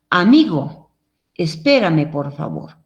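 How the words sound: There is a pause after Amigo.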